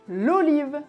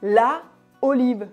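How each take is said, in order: First: The words flow together without any pause. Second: A pause separates the two vowel sounds. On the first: The speaker calls it right. "C'est beaucoup plus naturel et fluide" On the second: The speaker calls it wrong. "on devrait faire une pause pour le prononcer"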